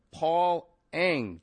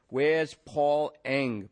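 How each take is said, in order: First: "Paul Eng" louder and higher, falling; blaring. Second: Very slow, louder and higher; blaring. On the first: Detective yelling a name at the men. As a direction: bellow the name at them. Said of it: "Then blaring". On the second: Detective blaring a name at the karaoke men. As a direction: blare the name at the room. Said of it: "Maddie blared flatly". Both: A narrator's reading.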